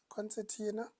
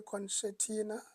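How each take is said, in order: First: Said in the usual way. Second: Concertina said with a sh, "con-sher-tina"; mispronounced. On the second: Real, not acted. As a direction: slip on concertina, turning its s sound into sh. Slip, corrected right after.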